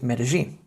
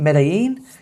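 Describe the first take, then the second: First: The double L is a j sound. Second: The double L is not a j sound. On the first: The speaker calls it right. "should be pronounced as Medellin" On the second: The speaker calls it wrong. "rather than it being Medellin"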